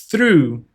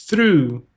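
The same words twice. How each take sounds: The two takes are said the same way.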